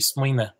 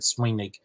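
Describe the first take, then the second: First: The word ends with a weak schwa vowel. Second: The word ends with a hard k sound. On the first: "in Connacht it might be swine with just the kind of schwa at the end" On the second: "that's Munster pronunciation to have that hard K sound"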